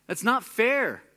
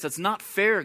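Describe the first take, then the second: First: Much higher and louder, indignant cry; outraged protest. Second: Mildly raised, hurt protest; aggrieved protest. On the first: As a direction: let it burst out, wronged. Brother's complaint, repeated louder. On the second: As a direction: push back a little, like it's unjust. Brother's complaint, first take. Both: Retold or imitated.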